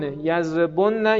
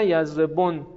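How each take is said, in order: First: "یضربن" as yazrebonna, with "o" and doubled n; slow "یضربن", held nn opening onto -na; heavy plural form. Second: "یضربن" as yazrebon, with "o" and closed final n; light plural form. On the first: Teacher reciting the heavy plural in the conjugation, "یضربن" as yazrebon-na. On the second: Teacher reciting the light plural after the heavy, "یضربن" as yazrebon. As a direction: stop "یضربن" on the n, tune falling. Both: Shown as a demonstration. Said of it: "خفیف و ثقیل است".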